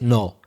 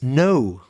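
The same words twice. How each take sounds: First: The vowel stays on one steady sound. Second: The vowel glides from one sound to another. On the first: The speaker calls it wrong. "the opposite of yes in English isn't no" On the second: The speaker calls it right. "It's no"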